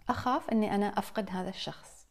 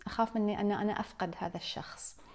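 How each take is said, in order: First: Said in the usual way. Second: Hushed unvoiced voicing of the dread of loss; whispered fear. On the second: Speaker voicing what people say about losing a loved one, whispered.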